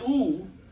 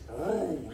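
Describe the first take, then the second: First: The sound is made without the throat. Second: The sound is made deep in the throat. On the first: The speaker calls it wrong. "So it's not ooh" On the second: The speaker calls it right. "You got to go in your throat"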